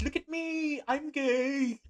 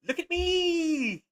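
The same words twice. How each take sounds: First: High squeaky meme quote; high mock cat voice. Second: High, slow squeaky meme voice; high slow mock cat voice. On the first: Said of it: "the cat meme on YouTube here that goes". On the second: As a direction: stretch it out like a silly cartoon cat.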